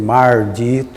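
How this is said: The first syllable ends in a countryside R sound. This is how the locals spoke. "se falava mardito"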